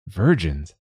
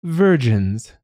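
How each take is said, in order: First: Said in the usual way. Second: High, lightly voiced dragon tenor; dragon's tenor voice. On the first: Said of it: "Virgins," it said". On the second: A narrator's reading. Dragon demanding its tribute, high tenor voice. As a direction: sing out the word like a tenor dragon. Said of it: "This dragon had the voice of a tenor".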